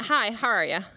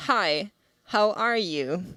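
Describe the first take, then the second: First: Quick, run-together "Hi, how are ya?"; imitated offhand Cork greeting; casual shopkeeper greeting. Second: "Hi," then a pause, "how are you" fully separated; imitated pointed, careful greeting; slowed-down repeated greeting. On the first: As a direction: toss off "how are ya" as one loose phrase. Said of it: "he went". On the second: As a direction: greet slowly and deliberately, word by word. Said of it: "slowed down what he was doing ... said".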